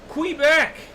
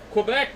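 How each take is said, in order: First: The word is said in an odd put-on accent. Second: The word is said in a plain, normal accent. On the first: "weird kind of fucking D X accent" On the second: "It's not Quebec now"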